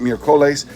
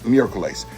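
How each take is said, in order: First: The stress is on the second syllable. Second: The stress is on the first syllable. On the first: The speaker calls it wrong. "if the accent mark wasn't there, you'd pronounce it miércoles" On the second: The speaker calls it right. "an accent mark on the first syllable"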